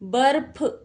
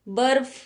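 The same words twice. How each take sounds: First: The last consonant is an aspirated p sound. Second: The last consonant is an f sound. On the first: The speaker calls it wrong. "बर्फ नहीं होता" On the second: The speaker calls it right. "यहां पर भी नुक्ता लगेगा"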